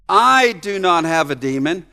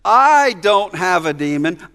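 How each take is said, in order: First: I pushed up and held; stress on I. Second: I lifted and slowed; slow, land on I; stress on I. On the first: Preacher reading the verse with stress on I. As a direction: lean on the I. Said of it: "the "I" is emphatic". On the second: Preacher showing what Jesus means, stressing I. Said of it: "a way in which he's saying". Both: Shown as a demonstration.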